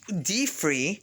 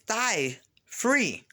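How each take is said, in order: First: The first word sounds like 'dee'. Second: The first word sounds like 'die'. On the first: "I call it D free" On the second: "if you pronounce it differently, it's die free"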